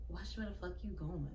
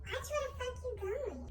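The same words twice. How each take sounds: First: Low muttered threat under the breath; quiet whispered warning in a crowded hallway. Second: Mocking high, hushed repeat; hushed mocking of the girl's threat; said low. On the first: Retold or imitated. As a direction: hiss it quietly as you pass. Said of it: "And she whispers it". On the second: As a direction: imitate her quiet mumble. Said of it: "She still said it low".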